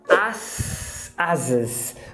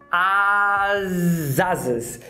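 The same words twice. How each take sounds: First: The words are separate with an S sound. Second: The words are linked with a Z sound. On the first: The speaker calls it wrong. "Você não fala as asas" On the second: The speaker calls it right. "Você junta ... esse S virou um Z"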